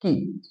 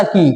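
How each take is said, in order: First: "की" said very short and soft; "की" as a brief, quiet syllable with short i; short quick vowel. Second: "की" with the long ee held out; lengthened vowel. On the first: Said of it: "एकदम इसे जल्दी से बोलना है". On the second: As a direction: stretch the vowel of "की" a little. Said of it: "ये वाला की तो थोड़ा लंबा". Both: Shown as a demonstration.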